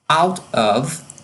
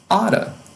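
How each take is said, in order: First: Both words are said fully and separately. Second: The words blend together with a reduced ending.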